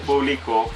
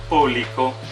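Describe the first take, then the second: First: The stress is on the last syllable. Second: The stress is on the first syllable. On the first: "que es una palabra aguda" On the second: "que es una palabra esdrújula"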